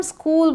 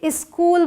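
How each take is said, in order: First: स्कूल starting straight on the s, no vowel before it; correct pronunciation. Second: स्कूल with an extra "i" in front, "iskool"; common mispronunciation. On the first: Teacher models the standard स्कूल for Hindi-speaking learners, correct pronunciation. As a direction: say स्कूल as one syllable, "skool". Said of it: "इसे हम स्कूल बोलते हैं". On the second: Teacher shows learners the Hindi-habit स्कूल, mispronounced "iskool". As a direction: put a short vowel before the s of स्कूल. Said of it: "बहुत सारे लोग इसे स्कूल बोलते हैं". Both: Shown as a demonstration.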